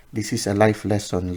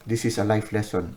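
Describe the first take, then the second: First: Life lesson a bit louder, leaning on life; emphasized. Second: Said in the usual way. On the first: Shown as a demonstration. Reader stresses the card's message to the client, emphatic. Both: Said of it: "the universe is emphasizing".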